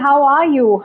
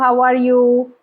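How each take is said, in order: First: The voice is lively with varied pitch and emotion. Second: The voice is flat with little pitch movement. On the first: The asker genuinely wants to know. The speaker calls it right. "bring in some emotion, bring in some voice modulation" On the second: It is only a routine social signal. The speaker calls it wrong. "So instead of"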